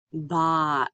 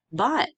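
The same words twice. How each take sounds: First: BOT drawn out slowly, final t separate; stretched out. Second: BOT short and whole, higher pitch; said faster. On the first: Teacher blending sounds for students, BOT slowly stretched out. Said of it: "say it slowly and stretched out". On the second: Teacher showing students the finished word, BOT said faster. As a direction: bring BOT together as one quick word. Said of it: "then you can say it faster". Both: Shown as a demonstration.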